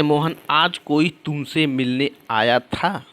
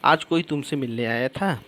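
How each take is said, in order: First: Slow example reading. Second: Quicker, casual question ending up on था; asking a question. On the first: Reads example sentence out slowly. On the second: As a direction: ask it as a question, lifting the final था. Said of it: "ये पूछ रहा है मोहन". (सवाल पूछते हुए, आख़िर के था पर सुर उठाकर) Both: Shown as a demonstration.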